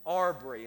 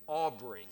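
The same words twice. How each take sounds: First: "Aubrey" said loudly as "Arbree"; U left out. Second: "Aubrey" with an AW first vowel, AW-bree; corrected pronunciation. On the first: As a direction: say "Aubrey" in Greene County speech, AR-bree. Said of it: "I left out the U". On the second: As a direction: say "Aubrey" carefully with the U restored. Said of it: "and it's Aubrey". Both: Shown as a demonstration.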